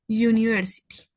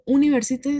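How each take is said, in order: First: It begins with a 'y' glide sound. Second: It begins with a plain vowel sound. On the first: The speaker calls it right. "sino como un U" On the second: The speaker calls it wrong. "no se pronuncia como university"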